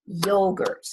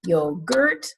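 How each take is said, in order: First: Yogurt with the weight on YO; stress on first syllable. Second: Yogurt with the weight on GURT; wrong stress on yogurt. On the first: Teacher offers the right yogurt, stressing YO. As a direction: say YO-gurt, light second syllable. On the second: Teacher asks do we say yogurt, wrongly stressing GURT. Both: Shown as a demonstration. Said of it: "is on the first syllable".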